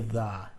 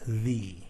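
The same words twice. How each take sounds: First: The vowel is short and rhymes with duh. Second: The vowel is long and rhymes with see. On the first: The next word starts with a consonant. "It rhymes with duh" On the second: The next word starts with a vowel. "It sounds like E, as in see"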